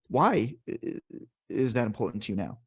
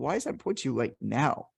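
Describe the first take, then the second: First: The stress falls on the word why. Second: The stress falls on the word now. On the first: The question invites talk about the reasons. "then you're emphasizing the why" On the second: The question invites talk about the timing. "they're going to talk to you about the timeliness aspect of it"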